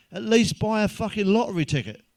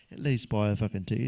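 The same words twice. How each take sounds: First: Booming God. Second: Said in the usual way. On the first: Acted. God's line, then repeated plainly.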